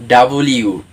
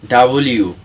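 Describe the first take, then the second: Both takes have the same delivery.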